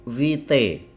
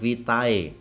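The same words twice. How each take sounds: First: The word ends in a plain 'e' vowel. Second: The word ends in an 'a-e' vowel sequence. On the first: The speaker calls it right. "A E dibaca E" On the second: The speaker calls it wrong. "bukan vitae"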